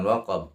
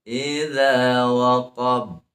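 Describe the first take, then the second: First: Short spoken waqab without bounce; wrong waqab. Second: Slow chanted idza, bounced b in waqab; correct waqab with qalqalah. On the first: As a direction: drop the chant and bounce from waqab. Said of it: "Bukan waqab". (waqab salah, tanpa qalqalah) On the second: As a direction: recite waqab held, then bounced. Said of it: "Dua harakat ya". (waqab benar, dengan qalqalah) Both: Shown as a demonstration.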